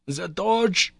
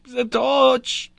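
First: Higher urgent cry, professor in alarm; wild cry. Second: Much higher and louder frantic shout of torch; wild cry. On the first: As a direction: call for the torch in alarm. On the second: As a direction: scream it out, panicking. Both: A narrator's reading. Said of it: "cried the professor wildly".

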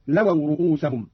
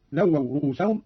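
First: "لووا" said "lawaw", w not doubled; a short single w in "لووا"; light single waw. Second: Said in the usual way. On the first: Shown as a demonstration. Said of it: "بتخفيف الواو". (تخفيف الواو في "لووا") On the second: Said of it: "قرأ قالون بتخفيف الواو".

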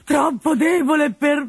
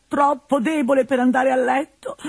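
First: "troppo debole" slowed and shouted high; exasperated shout. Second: Put-on whining old man. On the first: Acted. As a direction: break off the whine into a yell. Builds to shout. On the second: Pantalone complaining.

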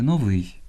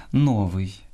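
First: Новий stressed on ВИЙ; end-stressed новий; stress on last syllable. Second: Новий stressed on НО; wrong first-syllable stress. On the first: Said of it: "а правильно сказати новий". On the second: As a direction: say НО-вий. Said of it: "неправильне наголошування слів". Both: Shown as a demonstration.

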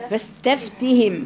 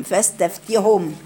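First: Said in the usual way. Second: فاستفتهم said slowly with the ending hum; Ruwais reading. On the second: Shown as a demonstration. Teacher slowly contrasts the two readings of فاستفتهم for students. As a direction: read فاستفتهم as fastaftihum, not fastaftihim. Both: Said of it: "يقرأها إزاي؟".

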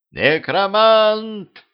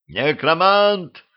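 First: Very high, slow drawn-out panicked yell; crowd yell. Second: High, slow drawn-out yell of outrage. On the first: Толпа в ужасе орёт и разбегается, протяжный высокий крик. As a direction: scream the name as the crowd flees. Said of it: "заорала толпа". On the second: Гриша орёт при виде колдуна, высокий протяжный крик. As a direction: howl the name in disbelief. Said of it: "заорал Гриша". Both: Acted.

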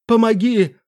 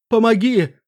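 First: Crying out for help. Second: Desperate shout for help, higher; choking cry for help. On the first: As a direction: scream for help again, drowning. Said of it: "снова крикнул лорд Даркулан". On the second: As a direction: cry out, half drowning. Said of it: "захлебнулся он криком". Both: Acted.

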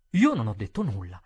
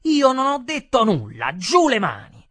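First: Said in the usual way. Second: Loud, high-pitched angry protest; heated. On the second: A narrator's reading. Waiter pushing the customer away, heated. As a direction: protest hotly at full voice. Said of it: "Io mi scaldai e dissi".

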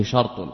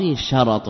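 First: شرط said "shart", no vowel after ر; sukun on the ra. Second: شرط said "sharat", two short a vowels; fatha on the ra. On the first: Teacher showing the form not to say, شرط with sukun on ر. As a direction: run ر straight into ط in شرط. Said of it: "ولا يقال فيه شرط". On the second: Teacher quoting the approved singular, شرط with fatha on ر. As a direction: put a short a after the ر in شرط. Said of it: "هكذا جزم بكونه بفتح الراء". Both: Shown as a demonstration.

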